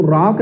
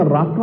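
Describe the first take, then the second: First: राक ending on the k; राक closed on k, without a vowel after it; wrong form राक. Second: राका with a long final aa; correct form राका. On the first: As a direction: say राक as one syllable, no final aa. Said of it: "राक नहीं होता". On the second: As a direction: say राका in two syllables, ending in an open aa. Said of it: "राका होता है". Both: Shown as a demonstration.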